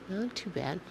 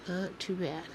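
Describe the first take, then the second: Both takes have the same delivery.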